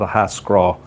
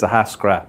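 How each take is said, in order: First: The name ends in a long 'aw' sound. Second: The name ends in a short 'ah' sound. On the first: The speaker calls it wrong. "not a Hascraw" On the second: The speaker calls it right. "the real way you say it is a Hascra"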